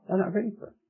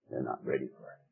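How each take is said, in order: First: Higher insistent repeat. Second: Low and soft. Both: Shown as a demonstration. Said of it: "repeated for emphasis".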